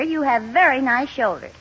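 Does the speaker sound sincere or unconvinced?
sincere. It sounds warm and sincere.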